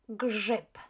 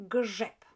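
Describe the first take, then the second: Both takes have the same delivery.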